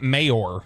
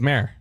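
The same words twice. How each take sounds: First: The word is said with two syllables. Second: The word is said with one syllable. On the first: The speaker calls it wrong. "It's not mayor" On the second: The speaker calls it right. "So you're telling me mayor is one syllable? Mm-hmm"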